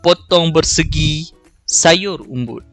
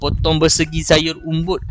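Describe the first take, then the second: First: The line is read with a short pause inside. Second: The line is read straight through without pausing. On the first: The speaker calls it right. "macam tu kalau kita nak baca pantun" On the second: The speaker calls it wrong. "itu dia tak ada jeda"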